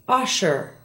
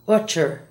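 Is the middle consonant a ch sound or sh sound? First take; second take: sh sound; ch sound. First: The middle consonant is a soft sh sound. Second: The middle consonant is a hard ch sound. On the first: The speaker calls it right. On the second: The speaker calls it wrong. "not utcher"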